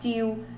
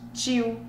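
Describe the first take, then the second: First: The word begins with a plain t sound. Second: The word begins with a tch sound. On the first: "Aí vai ser lá o som do T" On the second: "Sabe esse som de tch"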